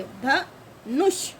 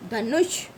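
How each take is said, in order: First: धनुष very slowly as dha, then nush; syllable by syllable. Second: Said in the usual way. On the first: Shown as a demonstration. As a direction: break धनुष in two with a gap. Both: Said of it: "छोटे ऊ की मात्रा हो गई".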